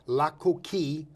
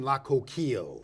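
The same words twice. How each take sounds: First: The name is pronounced the French way. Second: The name is pronounced the English way.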